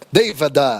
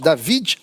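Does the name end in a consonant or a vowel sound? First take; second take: vowel; consonant. First: The name ends with a final e vowel. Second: The name ends on the consonant d.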